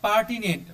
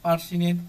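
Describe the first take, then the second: First: The middle consonant is a t sound. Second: The middle consonant is an s sound.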